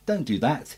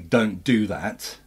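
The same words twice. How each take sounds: First: It is high-pitched, light and innocent. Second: It is lower, serious and angry.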